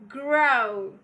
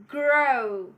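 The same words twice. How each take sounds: Both takes have the same delivery.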